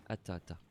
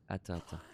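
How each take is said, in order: Both takes have the same delivery.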